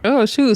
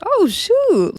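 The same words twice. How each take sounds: First: Said in the usual way. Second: High-pitched startled Oh, shoot with a big jump up; shocked oh shoot. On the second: Retold or imitated. Recapping a reality fight, she imitates her own shocked reaction. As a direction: squeal Oh, shoot in mock shock. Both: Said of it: "I was like".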